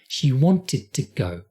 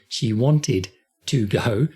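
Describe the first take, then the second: First: The T sounds of wanted and to are linked. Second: The T sounds of wanted and to are separate. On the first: The speaker calls it right. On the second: The speaker calls it wrong. "Don't say"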